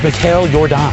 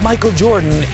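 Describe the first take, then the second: First: The first name sounds like Mikhail. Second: The first name sounds like English Michael. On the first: The speaker calls it right. "it's Mikhail Jordan" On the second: The speaker calls it wrong. "it's not Michael Jordan"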